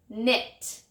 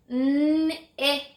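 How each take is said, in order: First: Said in the usual way. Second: 'N-it' drawn out sound by sound, held level; stretched word. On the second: Shown as a demonstration. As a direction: hold the n and i of 'N-it', then release the t. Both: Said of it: "Let's listen again".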